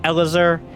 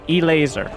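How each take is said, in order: First: The name begins with an 'El' sound. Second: The name begins with 'E', then 'laser'. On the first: The speaker calls it wrong. "not Elazar" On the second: The speaker calls it right. "No, E laser"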